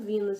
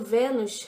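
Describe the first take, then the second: First: The name is pronounced the English way. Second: The name is pronounced the Portuguese way. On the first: "as americanas falam Venus" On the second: "Eu não falo Vênus"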